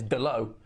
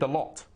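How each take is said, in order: First: The name ends in a vowel. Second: The name ends with a t sound. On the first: This is how the name is actually said. The speaker calls it right. "but it's Delo" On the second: This is how the written name looks when read. The speaker calls it wrong. "You read it Delot"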